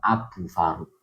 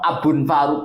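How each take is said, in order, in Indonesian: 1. Abu menyambung ke Faruk tanpa bunyi n. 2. Bunyi n mengikuti Abu sebelum Faruk. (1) "gak tanwin itu karena idho idhofah" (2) "Kau no"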